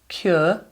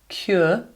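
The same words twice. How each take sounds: The two takes are said the same way.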